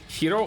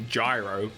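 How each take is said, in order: First: It begins with an H sound. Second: It is said as spelled, without an H sound. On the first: "it's actually H sounding" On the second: "you can pronounce it phonetically"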